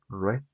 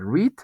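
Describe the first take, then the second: First: The vowel is short, like 'red'. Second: The vowel is long, like 'reed'. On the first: It is the past tense form. "como el color rojo" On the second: It is the present tense form. "Antes dije read"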